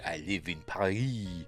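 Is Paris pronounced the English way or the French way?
French. Paris is said with a French pronunciation. The speaker calls it right. "You say I live in Paris"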